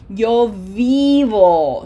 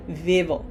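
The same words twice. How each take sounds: First: "vivo" very slow and loud, with a held "ee"; slow long I. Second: "vivo" with a short, lax "ih" in the first syllable; short wrong I. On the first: Teacher shows students the correct way, slow long "ee" in "vivo". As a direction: stretch "vivo" into "veee-vo", stressed on the first syllable. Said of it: "Say it that slowly". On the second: Teacher shows students the mistake, short "ih" in "vivo". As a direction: say "vivo" quickly as "vih-vo", unstressed. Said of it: "This is not vivo". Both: Shown as a demonstration.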